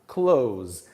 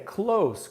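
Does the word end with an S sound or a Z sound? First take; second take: Z sound; S sound. First: The word ends with a buzzing Z sound. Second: The word ends with a hissing S sound. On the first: It means to shut something. "daí o som de Z no final" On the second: It means near. "daí o som de S no final e não o som de Z"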